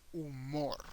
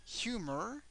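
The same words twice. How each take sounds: First: "humor" as oo-MOR, silent h; Spanish "humor", last syllable stressed; Spanish pronunciation. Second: "Humor" as HYOO-mer, high and rising; English "Humor", swooping up; English pronunciation. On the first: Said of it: "the H doesn't have a sound at all". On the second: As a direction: say "Humor" with h sounded, first syllable stressed. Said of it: "the pronunciation is different". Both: Shown as a demonstration.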